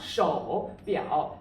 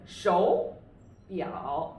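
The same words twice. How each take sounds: First: "shou biao" with both syllables dipping low; wrong reading, low dipping tone on each of "shou biao"; two third tones. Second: "shou biao" read with a rising first syllable; second-then-third tone. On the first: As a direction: dip "shou" instead of lifting it, then dip "biao". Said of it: "but it's not shou biao". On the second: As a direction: lift "shou" up, dip on "biao". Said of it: "read it the first as the second tone". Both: Shown as a demonstration.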